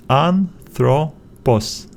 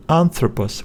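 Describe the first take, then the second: First: "Anthropos" slowly split as an, thro, pos; syllable by syllable. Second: Said in the usual way. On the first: Shown as a demonstration. Teacher splitting the word after the vowel, slow and separated. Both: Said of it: "we need to split it after the vowel".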